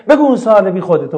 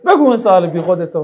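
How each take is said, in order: First: A touch of scorn, louder on بگو; mock rude order. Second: Dismissive, a little louder on بگو; mock rude order. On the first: Teacher imitating a rude reply to a student's question, mock dismissive. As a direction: brush the student off, half-hearted and dismissive. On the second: Teacher repeating the rude reply for the class, mock dismissive. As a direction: say it like a grudging brush-off. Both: Shown as a demonstration.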